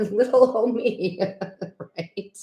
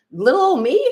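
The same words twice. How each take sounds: First: Giggling through the words; laughing. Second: Mock modest. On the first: Real, not acted. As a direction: laugh at yourself as you repeat it. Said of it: "repeating her own line, laughing". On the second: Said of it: "'Cause I'm like".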